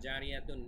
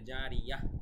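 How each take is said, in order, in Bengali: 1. শব্দটি একটি 'tun' ধ্বনি দিয়ে শেষ হয়। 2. শব্দটি একটি মৃদু 'h' ধ্বনি দিয়ে শেষ হয়। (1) "এভাবে না বলে" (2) "জারিয়াহ বলবো"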